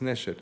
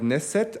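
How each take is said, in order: First: The middle consonant is an sh sound. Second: The middle consonant is a plain s sound. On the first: The speaker calls it right. "nee, das ist Neshet" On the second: The speaker calls it wrong. "den schreibt man halt auf Deutsch mit S, dann wird er halt Neset ausgesprochen"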